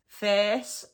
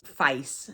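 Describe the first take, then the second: First: FACE as "fairce", with an open "eh". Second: Said in the usual way. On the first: Shown as a demonstration. Teacher introduces the word, FACE said "fairce", rising. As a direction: open the vowel of FACE to "feh-s". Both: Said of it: "It's the way it's pronounced".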